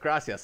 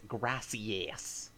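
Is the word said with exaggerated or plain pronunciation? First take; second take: plain; exaggerated. First: The word is said in a plain way. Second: The word is said with exaggerated pronunciation.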